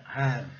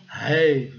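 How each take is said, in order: First: "have" with an open A, like "hav"; falling "have", plain open A; correct "have". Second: "have" with a long AY, like "hayve"; drawn-out "have" with an AY glide; wrong rule-based "have". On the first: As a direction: say "have" with the vowel of "hat". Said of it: "Então é have". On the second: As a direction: say "have" to rhyme with "wave". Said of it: "Mas não é, claro que não". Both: Shown as a demonstration.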